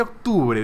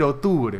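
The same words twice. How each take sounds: First: Said in the usual way. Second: Octubre said as otubre, no k sound; k dropped from octubre. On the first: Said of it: "en vez de". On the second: Shown as a demonstration. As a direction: swallow the k of octubre.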